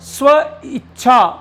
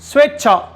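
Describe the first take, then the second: First: There is a short stop in the middle. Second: The word flows smoothly with no break. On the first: The speaker calls it wrong. "आपको ई बीच में रुकना पड़ रहा है" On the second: The speaker calls it right. "बिल्कुल भी अवरोध नहीं आ रही, बिल्कुल भी रुकावट नहीं आ रही"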